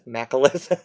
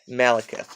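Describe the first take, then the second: First: The K sound comes before the L sound. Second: The L sound comes before the K sound. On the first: The speaker calls it wrong. "I always want to say Makalith. I don't know why I juxtapose the K and the L" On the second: The speaker calls it right. "I have to remember to say it properly"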